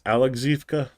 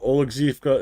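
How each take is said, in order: First: The name begins with an A sound. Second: The name begins with an O sound. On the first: "the Russian pronunciation" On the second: "instead of Oleksivka"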